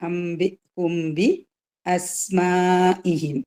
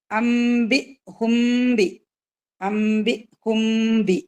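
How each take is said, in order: First: അംബി ഹുംബി അസ്മാഇഹിം chanted very slowly; slow tajweed chant of അസ്മാഇഹിം; Quranic recitation. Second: അംബി ഹുംബി very slow, chanted, nasal m held; drawn-out recited അംബി ഹുംബി; Quranic recitation. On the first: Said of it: "മണിക്കുക". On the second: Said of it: "അത് mix ചെയ്തിട്ട് pronounce ചെയ്യുക". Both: Shown as a demonstration.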